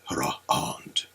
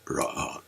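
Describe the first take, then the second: First: The word is said slowly. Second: The word is said fast.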